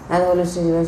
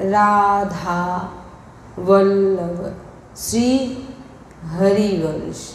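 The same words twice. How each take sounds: First: The phrase is said quickly, like a call. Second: The phrase is said slowly with long syllables. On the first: The speaker calls it wrong. "আপনি কাউকে ডাকছেন" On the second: The speaker calls it right. "বড় মাত্রায়"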